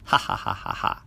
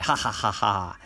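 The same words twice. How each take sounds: First: Whispered sly chuckle; silent laugh. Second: Sly gloating laugh; laugh out loud. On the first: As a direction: laugh under your breath. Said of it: "He laughed inside his head". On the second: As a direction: cackle out loud at the trick. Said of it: "out loud this time". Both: Acted.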